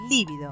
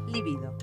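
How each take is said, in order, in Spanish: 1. El acento está en la primera sílaba. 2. El acento está en la segunda sílaba. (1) "no lleva tilde en la primera I, por lo que no debe escribirse ni pronunciarse líbido" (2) "sino libido"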